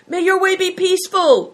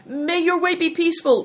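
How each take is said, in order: First: Very high, loud farewell shout from afar. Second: High, loud farewell call; cried out. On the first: A rider shouting goodbye to the boys from beyond the wall, loud. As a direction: shout the blessing across the courtyard. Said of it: "shouted Bator". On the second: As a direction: call the blessing out after them. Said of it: "cried Bator". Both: A narrator's reading.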